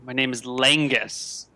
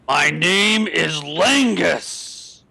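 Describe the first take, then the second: First: It is said at a normal, moderate volume. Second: It is said loudly in a booming voice.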